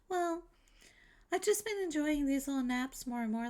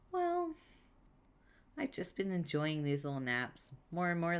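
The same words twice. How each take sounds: First: It is said in the put-on character voice. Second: It slips out of the put-on character voice. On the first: The speaker calls it right. "Let me get back into her voice" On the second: The speaker calls it wrong. "I lost it"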